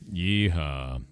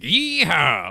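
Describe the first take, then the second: First: It is said low-pitched and flat. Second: It is said high-pitched and excited. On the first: The speaker is sad or unenthusiastic. "if we're getting like oh, then we're not excited" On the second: The speaker is happy and energetic. "if we're getting high pitched, we're excited"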